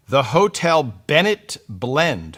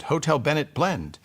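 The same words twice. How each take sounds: First: "Hotel" stretched and stressed, slow and careful. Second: "Blend" takes the stress, falling at the end. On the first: Reading the tea brand aloud, leaning on "Hotel". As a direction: read "Hotel" with the weight, words drawn out. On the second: Retrying the tea name with the weight on "Blend". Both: Shown as a demonstration. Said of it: "I have to stress right syllable".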